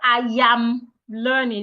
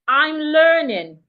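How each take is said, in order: First: The first word is stretched into two syllables. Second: The first word is one short syllable. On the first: The speaker calls it wrong. "not I am learning. It's not yam" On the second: The speaker calls it right.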